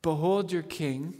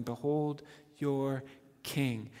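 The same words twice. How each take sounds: First: Said in the usual way. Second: "Behold your king" slow and hushed; slow solemn. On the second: Shown as a demonstration. Preacher savouring Pilate's words, slow and hushed. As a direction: let "Behold your king" land slowly and softly. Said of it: "He never said a more true thing".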